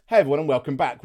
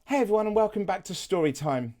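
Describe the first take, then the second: First: First intro voice. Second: Gentle, softened intro greeting; softer storyteller voice. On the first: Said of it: "I just went with". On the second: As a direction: ease into it softly, like story time. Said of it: "I changed my voice a little bit, purely because it was softer". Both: Shown as a demonstration.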